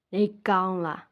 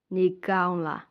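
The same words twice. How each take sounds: The two takes are said the same way.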